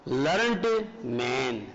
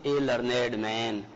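First: "लर्नड man" with लर्नड said as one syllable, drawn out slowly; slow, low "लर्नड man", -ed swallowed into the stem; wrong one-syllable "learned". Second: "A लर्नेड man" with लर्नेड said as "lur-ned"; slow, low model of "A लर्नेड man", two-syllable लर्नेड; two-syllable adjective "learned". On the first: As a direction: say लर्नड as "lurnd", no separate -ed. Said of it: "ये गलत होता है". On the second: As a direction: sound the -ed in लर्नेड as its own syllable. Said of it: "आपको क्या बोलना चाहिए". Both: Shown as a demonstration.

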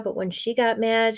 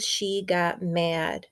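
First: Said in the usual way. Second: She got mad drawn out slowly, got stressed with a falling tune; slow emphatic. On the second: Acted. Reader slows for emphasis.

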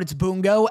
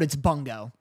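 First: Bungo with a hard B and a nasal first vowel; one way of saying Bungo. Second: Bungo dropped softer and lower; the other way of saying Bungo. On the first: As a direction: say "Bungo" clipped, stress on BUN. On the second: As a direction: let "Bungo" fall away softly and low. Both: Shown as a demonstration. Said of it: "never once consistently pronounced the name correctly".

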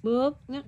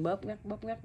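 First: High-pitched little squeeze words; teasing, amused show-and-tell; playful demonstration. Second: Soft, quick repeated words; hushed demonstration. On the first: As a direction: pop out each word playfully, pitched up. Mother imitates squeezing, pinching baby. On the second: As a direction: murmur it over a sleeping baby. Mother repeats it over sleeping baby. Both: Shown as a demonstration.

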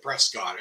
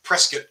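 First: Prescott said as "PRESS-kot"; outsider's pronunciation. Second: Prescott said as "PRESS-kit"; local pronunciation. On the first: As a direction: give Prescott a full "scott" ending. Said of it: "laugh at me for calling it Prescott". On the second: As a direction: reduce the end of Prescott to a short "kit". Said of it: "as the locals call it". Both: Shown as a demonstration.

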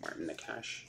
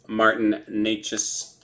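First: "Nakash" with a sh ending, very soft; alternative pronunciation. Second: "Necas" said with an s at the end; first pronunciation. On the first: Card breaker trying another way of saying it, "Nakash" ending in sh. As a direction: quietly offer "Nakash", ending in sh. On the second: Card breaker reading out a canvas card, "Necas" ending in s. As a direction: say "Necas" ending in a plain s sound. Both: Shown as a demonstration. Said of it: "Or Nakash".

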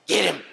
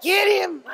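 First: A bit higher and louder playful urge; playful urging. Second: Very high, loud excited shout. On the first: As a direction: egg the dog on playfully. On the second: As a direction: shout it up to rile the dog. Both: Real, not acted. Owner starts play with dog.

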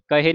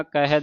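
First: ਕਹੇ ending in a closed e; wrong pronunciation demo. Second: ਕਹੈ ending in an open ai; correct pronunciation demo. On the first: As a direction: narrow the last vowel, ਕਹੇ as "kahe". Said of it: "ਕਹੇ ਨਹੀਂ ਪੜ੍ਹਨਾ". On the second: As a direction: widen the last vowel, ਕਹੈ as "kahai". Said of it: "ਕਹੈ ਦਲਾਵਾਂ ਦੇ ਨਾਲ". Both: Shown as a demonstration.

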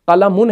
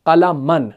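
First: قلمن ending in "-mun". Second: قلمن ending in "-man", falling. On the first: Teacher giving the example noun, -un ending on قلمن. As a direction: say قلمن as qalamun, short u before the n. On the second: Teacher answering with the nasb case, -an ending on قلمن. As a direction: say قلمن as qalaman, short a before the n. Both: Shown as a demonstration. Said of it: "حالت نصب کیا ہے قلمن کا؟".

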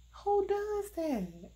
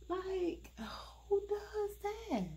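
First: Much higher, slow, louder outburst; incredulous outcry. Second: High, unvoiced whisper of disbelief; incredulous whisper. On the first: Reviewer crying out at the badly made wig cap. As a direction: cry it out in disbelief. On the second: Reviewer whispering in disbelief at the wig cap color. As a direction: hush it, can't believe it. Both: Real, not acted.

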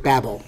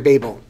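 First: "Babel" with a short a, as in "babble"; daughter's pronunciation. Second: Said in the usual way. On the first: Retold or imitated. Teacher quoting his daughter's version of the word, daughter's pronunciation. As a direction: say "Babel" lower and softer, rhyming with scrabble. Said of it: "as my daughter pronounced it". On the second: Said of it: "or as my daughter pronounced it".

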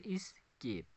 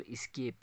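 First: "escape" in two separate beats, es-cape; split into syllables. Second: Said in the usual way. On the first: Shown as a demonstration. Teacher counting syllables for students, "escape" split in two. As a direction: say "escape" with a gap after es. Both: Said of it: "escape में कितने syllables आते हैं".

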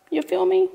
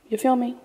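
First: Pitched way up, pressing; high insistent. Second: Said in the usual way. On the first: Real, not acted. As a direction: push the question higher. Repeated with big rise.

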